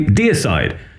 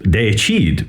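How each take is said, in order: First: The word is said with its American pronunciation. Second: The word is said with its Latin pronunciation. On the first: "Americans will say deicide" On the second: "would be pronounced deicide in Latin"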